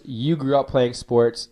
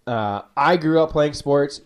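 First: You stressed, slow and even. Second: I stressed and slowed, rising slightly. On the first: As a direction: lean on the word You, slowly. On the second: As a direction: lean on the word I, slowly. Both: Shown as a demonstration. Contrasting I and you.

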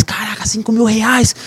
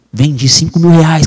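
First: "Caraca, cinco mil reais" higher, drawn-out, marvelling; amazed. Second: Said in the usual way. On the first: Retold or imitated. Reliving his amazement at the sale to his friend, higher and drawn out. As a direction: gasp it out in happy disbelief, slowly.

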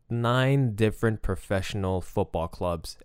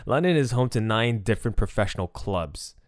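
First: Nine slowed and stressed as a restatement. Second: Said in the usual way. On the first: Shown as a demonstration. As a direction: lean on "Nine" and slow the whole line.

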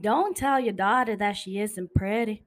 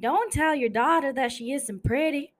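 First: Southern accent, steadier repeat; southern accent, another take. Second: Constance-style southern accent. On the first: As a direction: redo the southern line. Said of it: "Again, again, again". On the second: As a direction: put on a southern accent for the line. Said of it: "I was trying to make a southern accent". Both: Shown as a demonstration.

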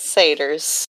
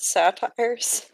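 First: "satyrs" said SAY-ters; common pronunciation. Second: "satires" said SAT-ires; former pronunciation. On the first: Friend reporting what everyone else says, "satyrs" as SAY-ters. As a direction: say "satyrs" with a long a and short ending. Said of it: "everyone else says satyrs". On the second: Friend recalling how they used to say it, "satires" as SAT-ires. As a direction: say "satires" with the ending like "tires". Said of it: "always pronounce it satires". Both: Shown as a demonstration.

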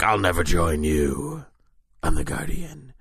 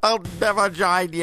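First: Mild heroic defiance. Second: Much higher, mocking reply; mock heroic refusal. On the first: Retold or imitated. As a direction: drag it out with mild resolve. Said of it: "And Guardian's like". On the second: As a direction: squeak out the defiant hero's line. Answering the Vader quote.

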